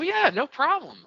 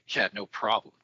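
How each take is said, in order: First: It sounds warm and friendly. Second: It sounds curt and dismissive. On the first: The speaker was happy to help. The speaker calls it right. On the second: The speaker is being rude about the favor. The speaker calls it wrong.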